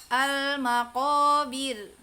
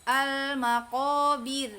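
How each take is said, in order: No difference in how they are said.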